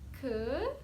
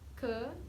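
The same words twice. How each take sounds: First: The pitch goes upward. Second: The pitch stays level and flat. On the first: "yang kedua ke / terus naik" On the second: "Yang pertama ke / dibaca datar"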